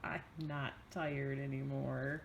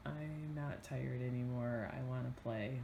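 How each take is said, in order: First: Mock whiny child voice; imitating child. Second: Imitating child. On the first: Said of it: "Do you get". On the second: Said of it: "That's a six-year-old for you". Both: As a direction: lightly mimic a whining six-year-old.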